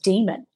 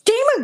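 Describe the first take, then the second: First: The word is said calmly, without aggression. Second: The word is said forcefully and insistently. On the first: "the voice was not aggressive the first time" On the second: "It got really insistent"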